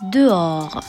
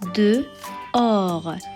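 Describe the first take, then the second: First: The word is said at ordinary speaking speed. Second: The word is said slowly and carefully.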